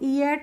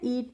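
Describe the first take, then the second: First: It is split into two syllables. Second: It is said as one syllable. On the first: The speaker calls it wrong. "इसको ई एट नहीं पढ़ते हैं" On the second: The speaker calls it right. "ईट पढ़ते हैं"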